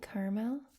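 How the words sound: It is said in a soft Colorado accent.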